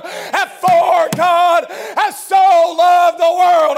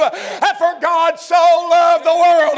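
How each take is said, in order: First: Slow chanted cry, louder at the end; half-sung preaching. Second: Slow, swelling preacher's cry, a bit louder; preaching. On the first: Preacher chanting the verse again to the church, slow and loud. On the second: Preacher lifting the verse to his congregation, slow and swelling. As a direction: lean into the verse, drawing it out. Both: Acted.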